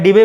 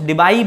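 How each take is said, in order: First: डिबे, ending in a plain "bay" vowel; preferred pronunciation डिबे. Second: डिबाई, second syllable "bye" with an "ee" glide; alternative pronunciation डिबाई. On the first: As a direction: say डिबे with "ay", no "eye" glide. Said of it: "मैं डिबे बोल देता हूँ". (डिबे, आख़िर में सीधा "ए" स्वर) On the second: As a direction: say डिबाई to rhyme its end with "eye". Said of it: "कुछ डिबाई बोलते हैं". (डिबाई, "बा" के बाद साफ़ "ई") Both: Shown as a demonstration.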